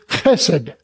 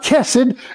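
First: It begins with a throaty ch sound. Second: It begins with a ch as in cheese. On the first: The speaker calls it right. "It is chesed" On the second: The speaker calls it wrong. "But it's not chesed"

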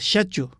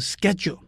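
First: The word is said with a British pronunciation. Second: The word is said with an American pronunciation. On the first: "英式的发音是" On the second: "美式的发音是"

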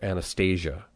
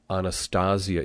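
First: It has English-style vowels and a soft th. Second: It has Latin vowels and a hard t. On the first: The speaker calls it wrong. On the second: The speaker calls it right. "this is Latin, so we use our Latin vowels. And a th is hard"

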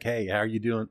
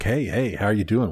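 First: It is said with low, uninterested energy. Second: It is said with high, excited energy.

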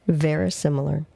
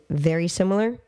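First: It is said as one word, unlike 'very similar'. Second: It is said like the two words 'very similar'. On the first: The speaker calls it right. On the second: The speaker calls it wrong.

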